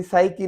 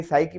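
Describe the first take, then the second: First: साइकी with a P put before the S; sounded P, mistaken. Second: साइकी starting straight on S; silent P. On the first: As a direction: say साइकी wrongly as "p-saiki". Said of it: "फिर साइकी नहीं पढ़ेंगे". (साइकी के आगे पी की आवाज़) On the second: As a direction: say साइकी with no P sound. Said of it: "पी इसमें silent है". (साइकी में पी silent) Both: Shown as a demonstration.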